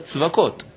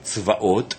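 First: The middle has a clear k sound. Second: The middle has a plain vowel with no consonant. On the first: This is a substitute form for everyday speech. "אלא צבקות" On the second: This is the actual divine name, not said in daily life. "אנחנו לא אומרים צבאות"

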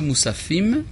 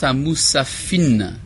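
First: The word ends with an m sound. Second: The word ends with an n sound. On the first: This is the standard form of the word. "לא מוספים" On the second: This is the old regional form of the word. "לפעמים היו מחליפים בין מם למן, לנון"

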